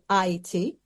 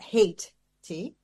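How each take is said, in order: First: The name begins with an 'eye' sound. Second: The name begins with a 'hay' sound. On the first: This is the original name, meaning land of mountains. The speaker calls it right. "but I T" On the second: This is the form the colonizers imposed. The speaker calls it wrong. "not hate T, which they changed it to"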